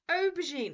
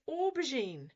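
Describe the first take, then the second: First: The first syllable lacks an 'or' sound. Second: The first syllable has an 'or' sound. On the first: The speaker calls it wrong. "It's not aubergine" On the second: The speaker calls it right. "which is an or sound"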